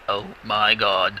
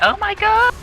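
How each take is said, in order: First: It sounds like Optimus Prime's deep voice. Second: It sounds like a giddy little schoolgirl.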